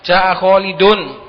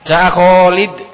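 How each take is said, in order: First: The final -un ending is clearly pronounced. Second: The final ending is dropped in a pausal form. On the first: The reader is confident reading through. The speaker calls it right. "di wakaf itu baca saja" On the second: The reader is not confident about the ending. The speaker calls it wrong. "Kalau diwakaf biasanya karena enggak berani"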